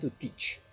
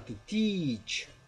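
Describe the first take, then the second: First: The vowel in teach is short and clipped. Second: The vowel in teach is long and stretched. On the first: The speaker calls it wrong. "não é to teach" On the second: The speaker calls it right. "é to teach"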